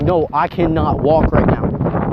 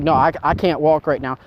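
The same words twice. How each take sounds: First: "cannot" spelled out slowly and pressed, each word deliberate; slow down and lean on "cannot" to end the argument; firm slow insistence. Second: Said in the usual way. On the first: Retold or imitated. Repeating refusal more firmly.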